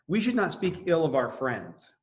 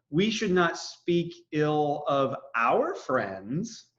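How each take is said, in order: First: No word is given special stress. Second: The word 'our' is stressed.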